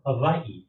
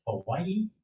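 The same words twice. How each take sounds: First: "Hawaii" with a V in place of W; pronunciation with V. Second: "Hawaii" with a clear W sound; pronunciation with W. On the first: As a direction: say "Hawaii" as ha-VAI-ee. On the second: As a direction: say "Hawaii" as ha-WAI-ee. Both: Acted. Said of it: "is the proper pronunciation".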